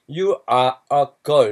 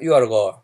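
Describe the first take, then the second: First: It is read evenly in a Korean style. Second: It is said in a native English style. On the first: "우리나라식으로 읽는다 그러면 you are a girl 이렇게 하겠지만" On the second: "걔네들은 you are a girl"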